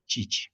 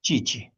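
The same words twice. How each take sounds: First: Chichi said softly, ch between sh and ch; soft model of chichi. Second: Chichi with a falling tune, each syllable clear; teacher models chichi once more; modeling chichi. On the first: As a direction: repeat chichi gently for students. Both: Shown as a demonstration. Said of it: "de forma intermedia".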